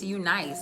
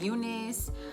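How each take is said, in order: First: The second part sounds like 'nice'. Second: The second part sounds like 'niss'. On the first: This follows the brand's written form. "it's a U with a dot and then a capital nice afterwards" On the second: This is how other people say the name. "I know people pronounce it like Eunice"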